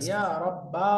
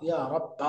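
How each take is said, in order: First: It ends with an added breathy h sound. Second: It ends on an open a vowel. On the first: "থেমে যাওয়ার একটা হা যুক্ত হয়ে" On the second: "শেষের যে পাঁচ নাম্বারটা আমরা বললাম ইয়া রাব্বা"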